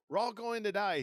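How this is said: It is shrieked hysterically.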